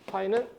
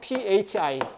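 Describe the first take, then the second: First: The word starts with a P sound. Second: The word starts with an F-like sound.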